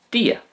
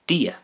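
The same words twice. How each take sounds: First: Dia said again alone, much higher; repeated for learners. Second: Said in the usual way. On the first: Shown as a demonstration. Teacher repeating dia high and clearly for learners. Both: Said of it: "The Irish for God is dia".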